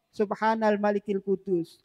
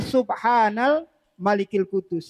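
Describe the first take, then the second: First: It is said in a quiet voice. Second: It is said in a louder voice. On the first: "Yang pertama pelan" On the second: "lebih dikencangkan suaranya"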